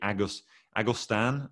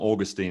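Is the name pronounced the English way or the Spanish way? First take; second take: Spanish; English. First: The name is said with Spanish pronunciation. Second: The name is said with English pronunciation. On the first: The speaker calls it right. "Maybe the correct pronunciation would be Agustan. It's a Mexican version of the name" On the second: The speaker calls it wrong. "that's the English version"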